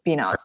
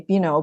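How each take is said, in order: First: The name is pronounced in a non-French style. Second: The name is pronounced in a French style. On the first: The speaker calls it right. "but it's Binot" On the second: The speaker calls it wrong. "I have a tendency to say Bino because I learned French in high school"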